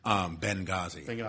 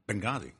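First: Ben is split off like a first name. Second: The word is said as one unit. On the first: It sounds like a man named Ben Ghazi. The speaker calls it wrong. "you pronounce Benghazi like it's some guy named Mr. Ghazi" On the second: It sounds like a single place name. The speaker calls it right. "How should I pronounce it?"

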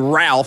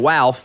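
First: The name begins with a clear R sound. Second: The name begins with a W-like sound. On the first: "we say Ralph instead of Walf" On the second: "instead of Walf"

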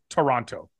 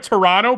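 First: The second T is clearly pronounced. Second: The second T is dropped. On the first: This sounds like a total tourist. The speaker calls it wrong. "but you can't get away with" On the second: This is how locals say the city's name. The speaker calls it right. "You can get away with"

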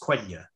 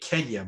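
First: The word begins with a 'kw' sound. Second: The word begins with a plain 'k' sound. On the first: The speaker calls it right. "but it's Quenya" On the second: The speaker calls it wrong. "I read it Kenya"

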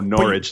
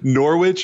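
First: The W sound in the middle is silent. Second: The W sound in the middle is pronounced. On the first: The speaker calls it right. "You take the W out of it" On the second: The speaker calls it wrong. "Am I overpronouncing the W?"

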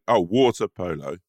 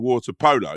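First: The stress is on water. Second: The stress is on polo.

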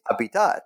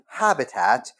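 First: It is said with a French accent. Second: It is said with a plain English accent. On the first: "they said them with a French accent" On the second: "So it's not habitat"

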